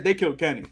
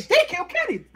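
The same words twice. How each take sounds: First: Said in the usual way. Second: High, emphatic outcry of the line; much higher, laughing outcry; South Park outcry. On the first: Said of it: "They said". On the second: Shown as a demonstration. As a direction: cry it out like the famous South Park moment. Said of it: "But they didn't say".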